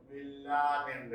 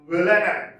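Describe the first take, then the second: First: Villanelle said the mistaken way, evenly, without a punched syllable; mispronounced Villanelle. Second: Villanelle with the second syllable stressed, loud. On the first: Teacher showing students how not to say it, mispronounced Villanelle. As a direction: say Villanelle level, as an example of the error. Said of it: "it is not pronounced that way". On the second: Teacher modelling the correct word for students, Villanelle stressed on second syllable. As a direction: punch the second syllable of Villanelle, then fall. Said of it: "Stress is on the second syllable".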